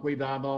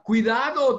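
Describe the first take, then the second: First: Said in a flat, robotic monotone. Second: Said with urgent, alarmed emotion. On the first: A machine gives a warning without feeling. The speaker calls it wrong. "robot nos diga" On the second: A person warns of real danger. The speaker calls it right. "alguien diga"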